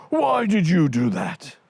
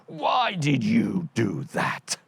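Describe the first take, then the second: First: Louder, higher giant's accusation; angry giant. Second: Slow, heavy voice of a puzzled giant. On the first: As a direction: blame the other giant hotly. Second giant accuses the first. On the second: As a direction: drag it out like a dim giant. Giant accuses the other. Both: Acted.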